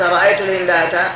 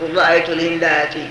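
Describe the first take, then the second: First: The last word ends with an a vowel. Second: The last word ends with an i vowel. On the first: The speaker calls it wrong. "فلو فتحتها قلت" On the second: The speaker calls it right. "قلنا اكشر"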